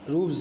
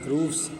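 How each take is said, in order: First: The word ends with a z sound. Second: The word ends with an s sound. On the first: The speaker calls it wrong. "नहीं" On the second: The speaker calls it right. "ऐस की आवाज़ निकालेंगे"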